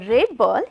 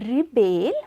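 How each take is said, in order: First: The stress is on the first syllable. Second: The stress is on the second syllable. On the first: It names a person. "When I pronounce it as a rebel, it works as a noun" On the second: It names an action. "when we pronounce it as a, a rebel, then it works as a verb"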